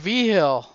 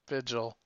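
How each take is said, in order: First: The name has its local New Mexican pronunciation. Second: The name has its standard English pronunciation. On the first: This is how the name is said locally. "But I say V-Hill. That's a New Mexican thing" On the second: Nobody locally says the name this way. "No one gives the Eurocentric pronunciation"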